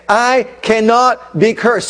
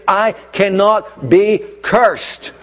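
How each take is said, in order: First: "I cannot be cursed" repeated higher and louder, slow; louder declaration. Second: Each word slow, "I cannot be cursed" stretched and weighty; slow declaration. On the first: Preacher repeating the declaration for the church, louder slow proclamation. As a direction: ring it out again, stronger. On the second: Preacher declaring to congregation, slow weighty proclamation. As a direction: lay down "cannot" slowly like a verdict. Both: Shown as a demonstration. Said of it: "I'm gonna say it again".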